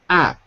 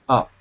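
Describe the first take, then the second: First: The syllable sounds like the word 'app'. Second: The syllable sounds like the word 'up'. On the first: The speaker calls it wrong. "Not app" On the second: The speaker calls it right. "but up"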